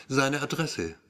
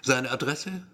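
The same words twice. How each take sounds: First: "Seine Adresse" with a falling, statement-like end; zaghafte Bitte. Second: "Seine Adresse" rising into a question; fragendes Echo. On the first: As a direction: let "Adresse" drop gently, as a tentative request. Erzähler bittet Polizisten um Adresse. (zaghafte Bitte, „Adresse“ am Ende fallend) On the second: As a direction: echo the request, lifting the end of "Adresse". Polizist wiederholt die Bitte als Rückfrage. (Rückfrage, „Adresse“ am Ende steigend) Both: A narrator's reading.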